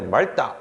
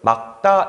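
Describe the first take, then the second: First: The first syllable ends in an l sound. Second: The first syllable ends in a k sound. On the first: The speaker calls it wrong. "우리가 굉장히 많이 발음을 오해하는데 말다 이렇게 발음하는 경우 많잖아요. 그렇게 하시면 안 되고요" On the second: The speaker calls it right. "막다 이렇게 발음하셔야 돼요"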